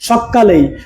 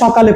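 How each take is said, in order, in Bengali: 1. 'ক' ধ্বনিটি দ্বিত্ব এবং আরও বেশি সময় ধরে উচ্চারিত হয়। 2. 'ক' ধ্বনিটি হ্রস্ব ও সরল। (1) "মানে একটু বেশি গুরুত্ব দিচ্ছি আপনাদেরকে" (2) "আমি এরকম করে বললাম"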